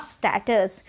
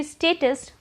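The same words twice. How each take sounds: First: Status with a short a as in cat, STAT-us; wrong pronunciation. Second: Status with a long ay sound, STAY-tus; correct pronunciation. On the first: Teacher showing the wrong form, slowly. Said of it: "not status". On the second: Teacher giving the correct form to learners. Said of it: "it should be status". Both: Shown as a demonstration.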